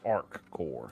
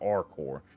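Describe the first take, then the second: First: It has a clear k sound before 'core'. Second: It runs together with no k before 'core'. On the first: The speaker calls it right. "It's Arc Core" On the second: The speaker calls it wrong. "So I'm saying it wrong. It's not Arcor"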